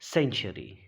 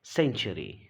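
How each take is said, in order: First: The word begins with an s sound. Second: The word begins with an s sound.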